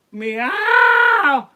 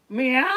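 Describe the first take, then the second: First: Very high, long, screaming meow; hammed-up wail of a weeping cat; crying cat meow. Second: Loud, high meow; too much cat. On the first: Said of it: "more cry". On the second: Acted. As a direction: wail it like a crying cat. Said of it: "That's too much cat".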